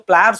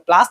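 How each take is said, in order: First: The word is said as 'pliers'. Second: The word is said as 'plaas'. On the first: The speaker calls it right. "जो प्लायर्स होता है वो" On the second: The speaker calls it wrong. "प्लास नाम का कुछ नहीं होता"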